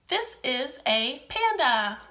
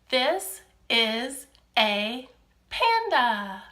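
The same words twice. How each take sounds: First: The sentence is spoken at a quick pace. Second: The sentence is spoken at a slow pace. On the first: The speaker calls it wrong. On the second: The speaker calls it right.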